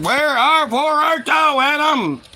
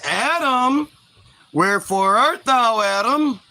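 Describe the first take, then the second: First: High, raised mock bellow; hammed-up divine summons, losing patience; angry God calling. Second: Mock-grand calling out; lightly voiced God. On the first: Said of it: "God's getting mad". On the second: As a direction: call for someone with a hint of sing-song. God calls out for Adam.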